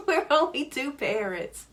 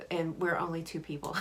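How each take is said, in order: First: Higher, laughing through the words; amused laughing aside. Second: Said in the usual way. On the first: Real, not acted. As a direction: chuckle it out as a joke. Laughing joke about only two parents.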